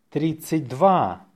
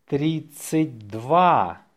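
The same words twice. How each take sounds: First: Natural-speed dictation; faster. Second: Slow, stretched-out dictation. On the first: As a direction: say it briskly, in one go. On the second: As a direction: draw the number out for learners. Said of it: "say it slowly". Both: Shown as a demonstration.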